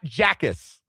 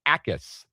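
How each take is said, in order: First: The name starts with a J sound. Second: The name starts without a J sound. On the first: The speaker calls it wrong. "It is not Jackas or anything that sounds like that" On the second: The speaker calls it right. "You don't pronounce the J"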